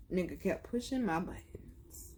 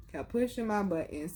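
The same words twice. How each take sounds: First: Hushed aside, breath only; a dark whispered aside. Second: Said in the usual way. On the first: Real, not acted. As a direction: whisper it like a secret grudge. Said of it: "unvoiced aside". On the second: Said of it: "repeat aloud".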